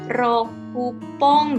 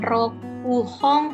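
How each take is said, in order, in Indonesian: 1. Dibaca penuh 'roku', lalu diikuti bunyi p. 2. Dibaca penuh 'roku', lalu diikuti bunyi h. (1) "rokupong gitu ya" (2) "bukan rokuhong"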